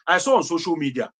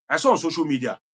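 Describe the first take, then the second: No difference in how they are said.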